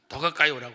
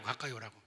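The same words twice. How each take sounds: First: Put-on calling the boy closer, much louder; a firm call to come closer. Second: Said in the usual way. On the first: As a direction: raise the voice on 가까이 as a summons. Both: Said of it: "제가 한 스무 번은 불렀을 거예요".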